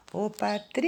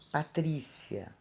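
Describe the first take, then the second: First: "Patrícia" called high, TRÍ stretched long; calling the name. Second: Said in the usual way. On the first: Shown as a demonstration. Teacher calls Patrícia to find the tonic syllable, calling with long TRÍ. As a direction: hail "Patrícia", dragging out TRÍ. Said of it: "Chama a palavrinha". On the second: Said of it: "A palavra Patrícia".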